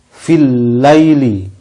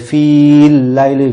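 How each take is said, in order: First: The vowel in 'fi' is short. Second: The vowel in 'fi' is held long. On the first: The speaker calls it right. "maka panjangnya menjadi hilang" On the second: The speaker calls it wrong. "tidak boleh"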